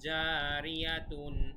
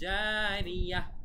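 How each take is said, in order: First: The word ends with a full 'tun' syllable. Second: The word ends with a soft 'h' sound. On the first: The phrase continues without a stop. "জারিয়াতুন এভাবে না বলে" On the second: The speaker stops at the end of the sentence. "থামার সময় ... জারিয়াহ বলবো"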